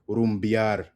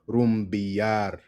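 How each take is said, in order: First: The word is said quickly and run together. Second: The word is said slowly with a strong R. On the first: "If you say it faster" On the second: "Emphasis on the R"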